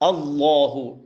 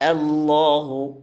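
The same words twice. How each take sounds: First: The opening vowel sounds heavy and dark, like o. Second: The opening vowel sounds light and thin. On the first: The speaker calls it wrong. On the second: The speaker calls it right.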